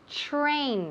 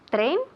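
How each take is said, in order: First: The t and r blend into a ch-like sound. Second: The t and r are said apart, Spanish-style. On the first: The speaker calls it right. "T R sounds like ch" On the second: The speaker calls it wrong. "please don't say train"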